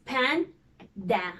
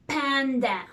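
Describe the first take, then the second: First: "Panda" cut cleanly into pan and da; split into syllables. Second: Said in the usual way. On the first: Shown as a demonstration. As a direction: pause in the middle of "Panda". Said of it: "Just like this". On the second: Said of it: "we divided the word into two".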